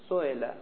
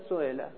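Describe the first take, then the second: No difference in how they are said.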